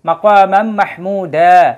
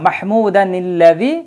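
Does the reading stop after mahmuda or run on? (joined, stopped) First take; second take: stopped; joined. First: The reading stops after mahmuda with no added n. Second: It runs straight on, linked by an added n. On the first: "ওয়াকফ করি" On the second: "একটানে যদি পড়ে যাই তখন নুনে কুতনি আনতে হবে"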